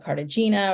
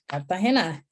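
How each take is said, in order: First: The name is said with English pronunciation. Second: The name is said with Spanish pronunciation. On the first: This is how other people say the name. The speaker calls it wrong. "but they'll pronounce it like Cartagena" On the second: This is how the name is meant to be said. The speaker calls it right. "So it's like Cartagena"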